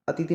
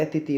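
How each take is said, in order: First: अतिथि as the mistaken form; wrong pronunciation. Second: अतिथि in separate syllables, "a-ti-thi"; correct pronunciation. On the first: Teacher shows the mistake in अतिथि, said quickly through. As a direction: say अतिथि run together. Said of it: "नहीं". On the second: Teacher gives the right form, अतिथि syllable by syllable. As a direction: sound each syllable of अतिथि. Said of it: "होते हैं". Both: Shown as a demonstration.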